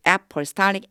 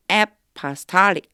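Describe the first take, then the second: First: Apostolic repeated with a rising end; pronunciation model. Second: Apostolic said slowly with the stress late, on -stol-; pronunciation model. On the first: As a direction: apostolic said again, tune lifting at the end. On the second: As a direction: spell out apostolic, leaning on the back syllable. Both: Shown as a demonstration. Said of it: "apostolic 이렇게 발음돼요".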